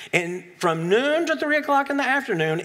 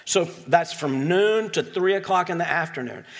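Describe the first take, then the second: First: From noon to three o'clock in the afternoon, said higher with weight; emphatic repeat. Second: Said in the usual way. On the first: Shown as a demonstration. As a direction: lean on the hours to stress them. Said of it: "repeated for emphasis". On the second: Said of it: "first statement".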